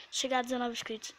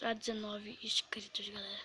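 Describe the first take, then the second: First: Said in the usual way. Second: Whispered, unvoiced aside; whispering. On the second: Real, not acted. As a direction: breathe it out in a whisper. Repeating subscriber goal.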